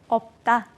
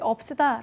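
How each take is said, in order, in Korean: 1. 받침 하나만 발음해요. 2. 두 자음 다 발음해요, 모음이 하나 더 붙어서요. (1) "없다 라고 발음하실 겁니다" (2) "둘 다 발음하지 않기로 약속했으니까요"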